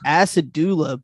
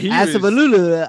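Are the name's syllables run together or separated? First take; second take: separated; run together. First: The syllables are said separately and clearly. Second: The syllables are run together as one. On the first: "I thought it was Asadula" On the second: "he was pronouncing it like all one syllable"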